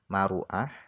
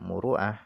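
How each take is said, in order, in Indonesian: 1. Vokal pertama setelah m adalah a. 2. Vokal pertama setelah m adalah u. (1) "dengan dibaca fathah mimnya" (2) "dan dibaca dhammah mimnya"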